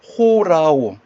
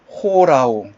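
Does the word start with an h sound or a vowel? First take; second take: h sound; h sound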